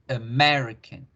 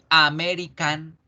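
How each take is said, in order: First: The unstressed vowels are reduced to a weak 'uh'. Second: The unstressed vowels are full, open 'ah' sounds. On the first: The speaker calls it right. "decimos uh, American" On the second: The speaker calls it wrong. "de aquí en adelante no vamos a decir American"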